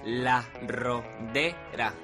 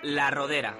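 First: The words are said with separation between them. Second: The words are said run together without break.

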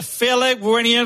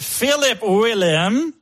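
First: The name is said quickly. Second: The name is said slowly.

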